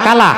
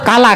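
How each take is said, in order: No difference in how they are said.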